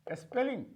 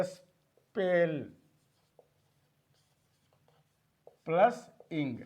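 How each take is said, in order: First: Said in the usual way. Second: "spell plus इंग", a long pause after "spell"; "spell... plus इंग" in two separate pieces; word divided. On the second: Shown as a demonstration. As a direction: say "spell", stop, then "plus इंग" lower. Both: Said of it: "को divide करता है".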